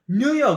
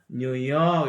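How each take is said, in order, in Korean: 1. 강세는 첫 번째 음절에 있어요. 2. 강세는 두 번째 음절에 있어요. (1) "뉴욕 이러면 못 알아듣는 사람들이 많아요" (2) "뒤에 강세 간다"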